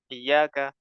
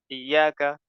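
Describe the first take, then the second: The two takes are said the same way.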